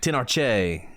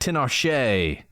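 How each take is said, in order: First: The middle consonant is a hard 'ch' sound. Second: The middle consonant is a soft 'sh' sound. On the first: The speaker calls it right. "Tinarche is probably better. Probably a cha" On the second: The speaker calls it wrong. "not a sha"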